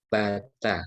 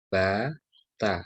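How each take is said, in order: First: The two syllables run together without a break. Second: The two syllables are said separately with a break. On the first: The letters are read as one connected word. "Kalau tersambung, langsung dibaca" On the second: The letters are read as separate letters. "Itu kalau terpisah"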